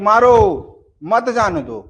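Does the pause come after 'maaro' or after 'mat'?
after maaro. The pause comes right after the first word. The order is to hit.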